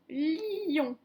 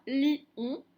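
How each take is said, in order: First: "lion" en une liaison, le i glissant vers "on"; lion lié. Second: "lion" split in two, "li... on"; lion séparé. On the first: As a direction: say "lion" joined, the i running on into "on". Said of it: "Si on lit ce mot". (« lion » prononcé lié, le i qui glisse vers « on ») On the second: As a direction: break "lion" after the i, no glide into "on". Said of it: "on ne prononce pas lion". (« lion » coupé en deux, « li - on », sans liaison) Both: Shown as a demonstration.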